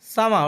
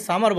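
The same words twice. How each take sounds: First: সামার ending in an open "a", "sama"; silent final R. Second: সামার ending in a sounded R, "samar"; old pronunciation with R. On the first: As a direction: leave the R off the end of সামার. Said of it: "আর এর উচ্চারণ হবে না". (সামার, শেষের র ছাড়া "সামা") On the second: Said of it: "এটাকে আমরা আগে সামার বলতাম". (সামার, শেষের র উচ্চারণ করে) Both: Shown as a demonstration.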